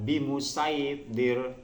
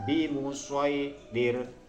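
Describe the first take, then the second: First: The s sound is light and plain. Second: The s sound is heavy and emphatic. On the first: The speaker calls it wrong. "Tidak bimusaydir, tidak" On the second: The speaker calls it right. "tetap kita baca shad"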